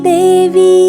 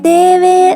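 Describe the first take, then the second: First: The word ends with a clear 'ee' vowel. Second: The word ends with an 'ay' vowel. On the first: The speaker calls it right. "ദേവി വി വി എന്ന് കേൾക്കണം നമുക്ക്" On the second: The speaker calls it wrong. "വേ ദേവേ എന്നാണ് കേൾക്കുന്നത്"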